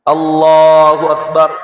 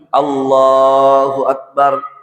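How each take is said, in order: First: It is said very quickly and hastily. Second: It is said slowly and calmly. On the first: The prayer is rushed without stillness. The speaker calls it wrong. "cepat sekali" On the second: The prayer is performed with proper stillness. The speaker calls it right. "tenang setiap gerakan sholat"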